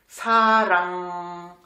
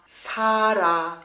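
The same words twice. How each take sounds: First: SARANG stretched, closing on a held NG; nasal final consonant. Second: SARA stretched, both vowels left open; open ending. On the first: Teacher repeating the right Korean word, nasal ending. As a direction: let SARANG hum out on NG. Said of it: "Mais c'était sarang". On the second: Teacher repeating the misspelt word, open ending. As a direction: end SARA on a clear A, no NG. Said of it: "si j'écris comme ça". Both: Shown as a demonstration.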